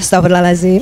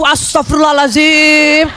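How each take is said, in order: First: It is said softly and gently. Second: It is said harshly, with exasperation.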